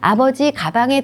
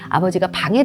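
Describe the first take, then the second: First: The break comes before the syllable 가. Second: The break comes after the syllable 가. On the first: Father went into a bag. The speaker calls it wrong. "라고 하면 안 되잖아요" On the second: Father went into the room. The speaker calls it right. "아버지가 방에 들어가셔야겠죠"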